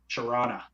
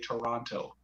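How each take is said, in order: First: The second t is dropped and the vowels reduced. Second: Every syllable is said fully, second t clearly sounded. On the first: The speaker sounds like a local. The speaker calls it right. "got to say Tirana" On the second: The speaker is not from the area. The speaker calls it wrong. "you cannot say Toronto"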